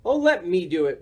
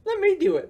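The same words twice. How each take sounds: First: Lightly insistent storybook cry, near normal pitch; mild eager cry. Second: Very high, eager little character voice; eager Morris voice. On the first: Boris taking his turn at the doorbell, mild cry. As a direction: offer to take over with mild impatience. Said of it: "Boris cried". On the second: Morris taking over the doorbell from Boris, high eager voice. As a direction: pipe up keenly in a high voice. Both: A narrator's reading.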